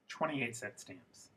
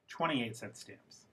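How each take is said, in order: First: The phrase is said as one unbroken group. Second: The phrase is said as one unbroken group.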